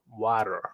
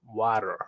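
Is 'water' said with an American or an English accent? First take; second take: American; American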